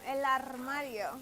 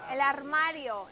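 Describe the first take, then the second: First: El armario with the r in armario rolled, said slowly; slow model of El armario, trilling the r. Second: Said in the usual way. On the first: Shown as a demonstration. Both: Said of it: "Roll your R's".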